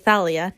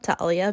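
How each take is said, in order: First: The name begins with a TH sound. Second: The name begins with a plain T sound. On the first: The speaker calls it right. "I say Thalia" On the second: The speaker calls it wrong. "not Talia"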